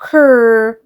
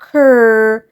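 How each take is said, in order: Both takes have the same delivery.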